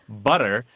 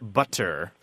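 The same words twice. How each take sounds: First: The middle T is a quick D-like flap. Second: The middle T is a crisp, fully released T. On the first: The speaker calls it right. "We turn it into a D sound, just like we do with butter" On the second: The speaker calls it wrong. "not butter"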